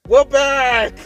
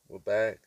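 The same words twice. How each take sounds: First: It is said with high energy. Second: It is said with low energy.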